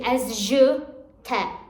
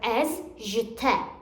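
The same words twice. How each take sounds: First: A pause splits the preposition from the word after. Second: The phrase is said together without a pause. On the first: The speaker calls it wrong. "don't say as je t'ai" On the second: The speaker calls it right. "but as je t'ai"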